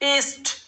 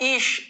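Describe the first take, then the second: First: The word ends with a clear t sound. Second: The word ends without a final t sound. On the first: The speaker calls it right. "ইস্ট ইস্ট ইস্ট not ইস" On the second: The speaker calls it wrong. "নট ইস"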